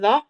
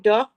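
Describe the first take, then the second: First: The word begins with a th sound. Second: The word begins with a plain d sound.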